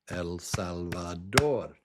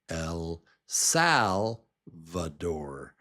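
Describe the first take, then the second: First: It is pronounced with Spanish sounds. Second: It is pronounced with English sounds. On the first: The speaker calls it right. "But the accurate way to say it is El Salvador" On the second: The speaker calls it wrong. "in English, I would say this name El Salvador"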